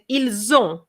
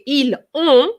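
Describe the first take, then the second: First: The words are linked with a z sound. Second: The words are said without a linking z sound. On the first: The speaker calls it right. "but I said ils ont" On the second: The speaker calls it wrong. "I didn't say ils ont"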